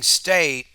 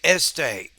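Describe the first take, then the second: First: The word begins directly with the s sound. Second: An extra vowel is added before the s. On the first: The speaker calls it right. "instead of saying state" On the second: The speaker calls it wrong. "you're saying estate"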